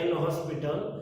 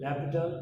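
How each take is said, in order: First: The name is read with an 's' sound. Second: The name is said without an 's' sound. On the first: The speaker calls it wrong. "spelling એવો થશે" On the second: The speaker calls it right. "but it will pronounced as L'Hopital"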